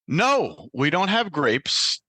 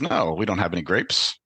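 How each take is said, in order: First: The clerk sounds very agitated. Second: The clerk sounds calm and neutral.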